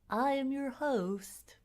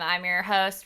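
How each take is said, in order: First: It is said in a slow NPR radio voice. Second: It is said in his normal speaking voice.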